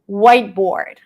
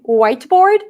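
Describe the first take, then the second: First: The T is held, not released. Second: The T is clearly released. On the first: "where you don't release the T" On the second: "if you were to say whiteboard, everyone would understand you"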